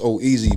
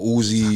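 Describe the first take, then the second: First: The name is said with three syllables, oh-ea-sy. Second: The name is said with two syllables, u-zi. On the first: The speaker calls it right. "it's pronounced oh easy" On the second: The speaker calls it wrong. "Some people say oh as or Uzi"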